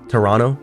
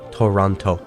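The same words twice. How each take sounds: First: It is said in a Canadian pronunciation. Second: It is said in an American pronunciation. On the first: "Canadians will say Toronto" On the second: "Americans say Toronto"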